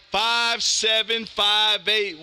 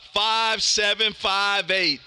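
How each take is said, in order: Both takes have the same delivery.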